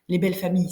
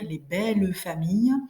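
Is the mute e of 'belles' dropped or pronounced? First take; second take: dropped; pronounced. First: The mute e of belles is dropped. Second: The mute e of belles is pronounced. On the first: This is how people speak in everyday conversation. "c'est comme ça qu'on parle nous" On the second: This is how a poem should be read. "quand on lit une poésie, on doit lire les belles familles"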